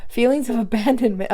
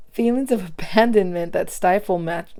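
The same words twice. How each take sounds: First: Rereading it fast, a bit higher, flustered. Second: Said in the usual way. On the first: Real, not acted. Rereading the card for viewers, fast and flustered. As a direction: rush "Feelings of abandonment" out, startled. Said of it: "I'm flipping out". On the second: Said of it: "I'm gonna cry, yo".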